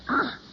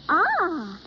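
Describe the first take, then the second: First: It sounds disgusted. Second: It sounds pleased.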